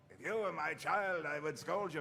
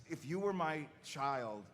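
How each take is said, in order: First: Lightly voiced stern father figure; a touch of in-character reproach; scolding Reinhardt. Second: Said in the usual way. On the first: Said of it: "he's like". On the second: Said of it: "he was like".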